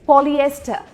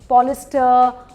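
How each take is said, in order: First: The word has 'ee-eh' after 'pol'. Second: The word has only 'ee' after 'pol'. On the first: The speaker calls it right. "पूरी तरीके से बोलना है पॉलिएस्टर" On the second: The speaker calls it wrong. "पता नहीं क्या क्या मैंने सुना है"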